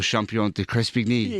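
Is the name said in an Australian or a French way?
French. The name is said with a French accent. This is how French speakers say his name. "as you'd said before"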